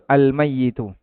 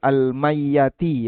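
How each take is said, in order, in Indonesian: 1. Kata ini berakhir dengan vokal i dan u. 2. Kata ini berakhir dengan vokal a dan i. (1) "Yang betul al mayyitu" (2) "Di situ tertulis al mayyati ya"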